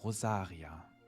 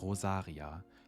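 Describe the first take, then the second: First: The name is said with a German accent. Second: The same.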